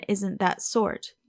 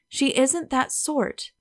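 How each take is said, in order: First: Slow, scornful echo of her phrase; slow sarcastic echo, stress on that; mocking repeat. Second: Said in the usual way. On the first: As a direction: throw her words back at her, slowly, with stress on that. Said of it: "tired of hearing that".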